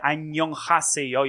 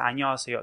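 First: The h sound in haseyo is clearly pronounced. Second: The h sound in haseyo is skipped. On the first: The speaker calls it wrong. "you don't say annyeong haseyo" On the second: The speaker calls it right. "you say annyeonghaseyo. So you skip h sound"

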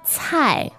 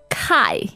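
First: The word begins with a ts sound. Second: The word begins with a k sound. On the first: The speaker calls it right. "the correct pronunciation for C in pinyin is a little bit like T-S" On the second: The speaker calls it wrong. "you might be tempted to pronounce this as kai"

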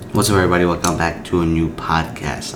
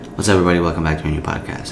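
First: The words are stretched out long. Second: The words are said at normal length.

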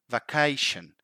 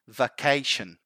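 Both takes have the same delivery.

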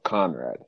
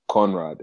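First: The name has its usual American pronunciation. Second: The name is adapted toward a British pronunciation. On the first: The listener is someone American. "instead of Conrad. Because if I say Conrad here" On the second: The listener is someone from a British dialect background. "from the British dialect, I'll say Conrad"

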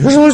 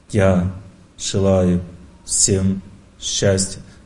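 First: It is said quickly and hurriedly. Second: It is said slowly, firmly and strongly.

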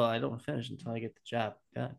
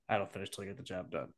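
First: The line is said in a light, casual way. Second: The line is said in a flat, menacing way. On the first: How the person probably actually said it. The speaker calls it right. "he's probably like, well" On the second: How the friend retold it, sounding threatening. The speaker calls it wrong. "It's a little menacing if you were to say it like that"

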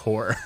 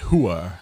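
First: It is said in a standard accent. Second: It is said in a New York accent. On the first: The speaker calls it wrong. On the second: The speaker calls it right. "It's a New York way to say it"

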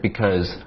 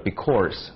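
First: The word has no r sound in it. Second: The word has an added curled r sound. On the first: The speaker calls it right. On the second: The speaker calls it wrong.

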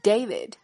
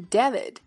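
First: The first vowel is the letter-name A. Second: The first vowel is not the letter-name A. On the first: The speaker calls it right. "字母A 发它的本音A，所以它从来都不读David，而是David" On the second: The speaker calls it wrong. "它从来都不读David"

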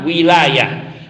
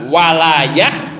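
First: The first vowel is a front 'i' sound. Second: The first vowel is an open 'a' sound. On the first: "ai bil kasri" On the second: "Ai bil fathi"

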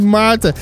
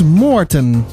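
First: The first vowel is an 'ah' sound. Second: The first vowel is an 'oh' sound. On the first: The speaker calls it wrong. "Ik zeg de hele tijd Maarten" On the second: The speaker calls it right. "spreek je uit als Moorten. Met de o van sok"

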